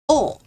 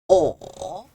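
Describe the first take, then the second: First: It is said with the fourth tone. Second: It is said with the third tone. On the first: "Fourth tone" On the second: "Third tone"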